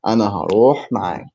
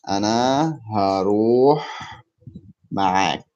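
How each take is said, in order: First: "أنا هروح معك" run together in one quick phrase; natural-speed repeat. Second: "أنا هروح معك" word by word, pausing before "معك". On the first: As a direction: say "أنا هروح معك" briskly, without pauses. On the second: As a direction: stretch "هروح", pause, then finish with "معك". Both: Shown as a demonstration. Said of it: "How can I say".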